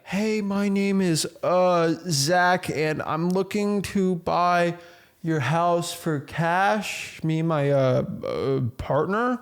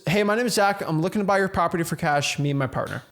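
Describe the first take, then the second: First: It sounds hesitant, with fillers and pauses. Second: It sounds confident and direct, without fillers.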